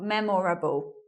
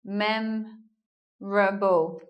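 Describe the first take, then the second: First: The word is said with four syllables. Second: The word is said with three syllables. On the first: "not memorable" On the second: "We're not hearing an O here"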